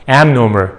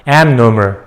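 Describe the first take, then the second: Both takes have the same delivery.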